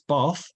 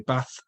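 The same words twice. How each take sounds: First: The vowel has an 'ar' sound. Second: The vowel has no 'ar' sound. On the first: This is how many people in London say it. "where I live in London, lots of people say it with an R sound" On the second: This is how people elsewhere in the country say it. "If you lived somewhere else in the country, you might say those words differently"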